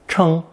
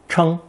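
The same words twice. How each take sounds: First: The pitch stays high and level. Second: The same.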